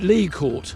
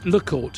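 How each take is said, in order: First: The first word has a long ee vowel. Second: The first word has a short eh vowel. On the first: This is how the locals say the name. "they actually pronounce it Lee Court" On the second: This is not how the locals say the name. "rather than Le Court"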